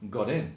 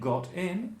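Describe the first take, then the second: First: The t is pronounced like a soft d. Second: The t is pronounced as a clear t. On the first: "The T's in the middle of the word become D's" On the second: "instead of saying got in"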